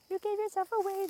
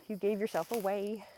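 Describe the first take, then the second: First: Sing-song tease, pitched up high; high teasing coo. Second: Said in the usual way. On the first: Real, not acted. Vlogger teasing chipmunk about its home, high sing-song.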